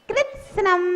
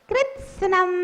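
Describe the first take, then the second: Both takes have the same delivery.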